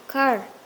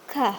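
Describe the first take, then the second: First: It is said with an American accent. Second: It is said with a British accent.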